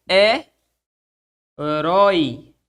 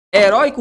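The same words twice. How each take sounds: First: "heróico" slowly split as e, rói, co; syllable by syllable. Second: Said in the usual way. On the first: Shown as a demonstration. Teacher giving another example word, "heróico" syllable by syllable. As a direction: break "heróico" up with long pauses between syllables. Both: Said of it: "Onde é a sílaba tônica de heróico?".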